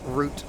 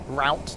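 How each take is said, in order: First: The vowel sounds like the one in 'Groot'. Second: The vowel sounds like the one in 'out'. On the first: The speaker calls it wrong. "not route as in Groot" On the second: The speaker calls it right. "that's route as in route"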